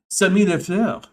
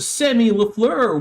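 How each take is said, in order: First: The name is said in a French accent. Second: The name is said in a plain accent.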